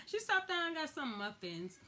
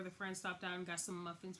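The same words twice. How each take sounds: First: Higher, with stress on stopped; emphatic retelling of the muffin stop; stressed repeat. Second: Said in the usual way. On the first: Shown as a demonstration.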